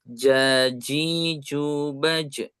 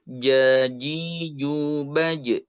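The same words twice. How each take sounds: First: The j is hissed, with air flowing through. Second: The j is rounded, with no hiss or airflow. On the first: The speaker calls it wrong. "dengan desis dengan eh, ada angin mengh- berhembus" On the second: The speaker calls it right. "saya baca yang bulatnya"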